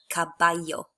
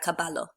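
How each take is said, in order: First: The double L sounds like an English Y. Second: The double L sounds like an English L. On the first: The speaker calls it right. "they make a Y sound" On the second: The speaker calls it wrong. "not montar a caballo"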